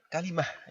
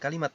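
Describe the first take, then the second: First: The word ends with a soft h sound. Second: The word ends with a t sound. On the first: The speaker calls it right. "kita baca kalimah pakai h belakangnya" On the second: The speaker calls it wrong. "Jangan dibaca kalimat"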